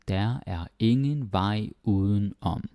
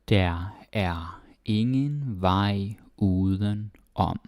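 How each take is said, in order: First: The sentence is read quickly and smoothly. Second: The sentence is read slowly and carefully. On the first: "then do the fast way" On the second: "That is very slow"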